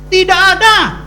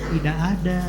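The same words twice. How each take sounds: First: It is said in an irritated, annoyed way. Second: It is said in a flat, neutral way. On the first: The speaker calls it right. "sedikit banyak pasti ada kekesalan" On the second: The speaker calls it wrong. "bukan jawabnya tidak ada"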